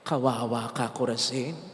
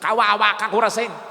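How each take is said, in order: First: It sounds sorrowful and pitying. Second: It sounds gloating and mocking. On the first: The town's coming fate is lamented. The speaker calls it right. "Hindi niyo po ba napansin kung paano ko binigkas?" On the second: The town's punishment is deserved and welcomed. The speaker calls it wrong. "Buti nga sa'yo. Parang ganon? Hindi ganon"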